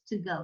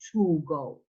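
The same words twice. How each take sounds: First: The word 'to' is reduced and unstressed. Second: The word 'to' is full and stressed. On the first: The speaker calls it right. "it's to go" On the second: The speaker calls it wrong. "not to go"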